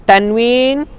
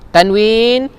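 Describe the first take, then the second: Both takes have the same delivery.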